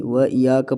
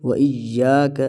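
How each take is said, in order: First: "و یا کا" with a single loose y; ya without doubling. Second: "و ایا کا" with a firm held double y; doubled y. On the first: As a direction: pass lightly over the y in "و یا کا". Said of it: "یا کے اوپر سختی نہیں ہوتی". ("و یا کا" سختی کے بغیر) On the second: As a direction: press on the y in "و ایا کا". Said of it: "یہاں پر بھی سختی کرنی ہے". ("و ایا کا" سختی کے ساتھ) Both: Shown as a demonstration.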